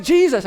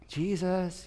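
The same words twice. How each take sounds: First: Calling the name out loud over the storm; urgent yell. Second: Soft, quiet call of the name; gentle wake-up. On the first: Disciples wake Jesus in the storm, yelling. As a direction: shout him awake. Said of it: "It's like". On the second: Preacher shows the wrong way to wake Jesus, softly. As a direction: coax him awake like a sleeping child. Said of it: "you know how you wake up your children". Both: Retold or imitated.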